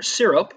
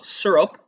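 First: "syrup" said with an "ih" first vowel, SIH-rup; first syllable of "syrup" near "seer"; SEER-up pronunciation. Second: "syrup" said with an "ur" first vowel, SUR-up; first syllable of "syrup" like "sir"; SUR-up pronunciation. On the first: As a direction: say "syrup" starting like "sit", not "sir". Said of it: "I say syrup". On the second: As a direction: say "syrup" to rhyme with "stir up". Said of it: "a lot of people say syrup". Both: Shown as a demonstration.

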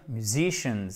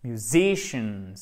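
First: "musicians" without the y glide after m; French-style pronunciation. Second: "musicians" with light myu, long stressed ZI; correct tonic stress. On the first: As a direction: say "musicians" starting with a plain moo or mu. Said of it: "Vous pourriez dire musicians". (« musicians » sans le son « you ») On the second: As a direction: lean slowly on the second syllable of "musicians". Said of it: "votre accent tonique et le reste du mot". (« musicians » lent, accent sur « zi », « you » atténué) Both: Shown as a demonstration.

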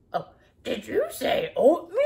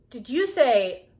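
First: Louder gravel-free monster put-on; Cookie Monster voice. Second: Said in the usual way. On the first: Shown as a demonstration. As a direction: ask it like a hungry monster. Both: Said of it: "It's my best Cookie Monster".

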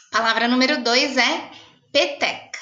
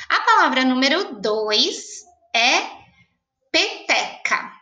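First: Said in the usual way. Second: Slow, held dictation of peteca. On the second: Shown as a demonstration. Teacher dictating peteca slowly to pupils. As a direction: draw the word out for writing.

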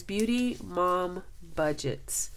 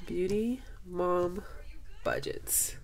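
First: Slowly reading the name, savoring it. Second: Slow, then whispered "Budgets"; awed whisper. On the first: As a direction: spell it out slowly in disbelief. Reading her channel name aloud. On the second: Rereading the name, awed. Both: Real, not acted.

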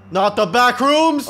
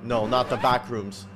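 First: Loud, high, slow cry of dread; dramatic wail. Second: Said in the usual way. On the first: Real, not acted. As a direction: wail it out in mock horror. Repeats it as mock horror shout.

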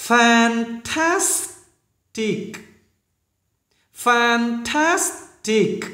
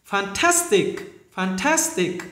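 First: Fantastic drawn out slowly. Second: Said in the usual way. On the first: Shown as a demonstration. Teacher slowly modelling fantastic. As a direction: stretch every syllable of Fantastic. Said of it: "những chữ hơi khó phát âm".

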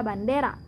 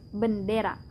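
First: Bandera said in Spanish, a clear open a after the b; Spanish word. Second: Bendera said the Indonesian way, an e after the b; bendera, the Indonesian twin of bandera, short e; Indonesian word. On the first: Teacher shows the Spanish word before the Indonesian one: Spanish pronunciation. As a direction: bandera with a long final a, the Spanish original. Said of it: "la palabra bandera". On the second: Teacher shows how Indonesians say the word: Indonesian pronunciation. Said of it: "Aquí decimos bendera". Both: Shown as a demonstration.

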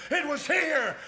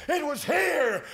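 The two takes are said the same way.

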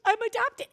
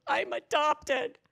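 First: Very high, loud imitation of an upset boy; boy's tearful outburst. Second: High, loud, drawn-out imitation of a boy; boy's outburst. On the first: Boy starting to cry to retreat leader, mock tearful outburst. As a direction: cry it out like a kid, hammed up. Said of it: "he starts crying". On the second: Troubled boy confessing to retreat leader, mock outburst. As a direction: blurt it out as an upset kid, hammed up.

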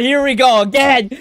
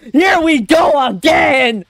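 First: Said in the usual way. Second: Slow, high, excited holler; real hyped-up shouting. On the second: Real, not acted. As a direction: stretch each word into a yell. Excited as fight restarts, repeated.

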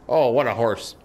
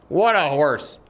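First: Said in the usual way. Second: "What" leaned on, then falling; emphatic praise. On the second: Pretend. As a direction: admire the horse, punching "What". Repeats the praise with more force.

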